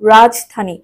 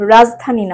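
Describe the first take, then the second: First: The j sound is a clear affricate. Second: The j sound is softened, not a clear affricate. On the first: The speaker calls it right. "বর্গীয়" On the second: The speaker calls it wrong. "রাজধানী না"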